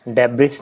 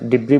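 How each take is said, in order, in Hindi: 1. इस शब्द के अंत में एक सुनाई देने वाली s ध्वनि है। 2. शब्द स्वर पर खत्म होता है, इसमें s नहीं है। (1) "डेब्रिस नहीं बोलना" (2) "इसको डिब्री बोला जाता है"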